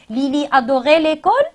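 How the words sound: The voice rises at the end. It is asked as a question.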